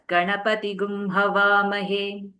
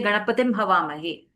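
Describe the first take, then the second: First: The first word ends in an added gum sound. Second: The first word ends in a plain m sound. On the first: This is the Yajurveda way of reciting it. "in the Yajurveda, you are going to read it as" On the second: This is the Rig Veda way of reciting it. "in Rig Veda, you will say Ganapatim Havamahe"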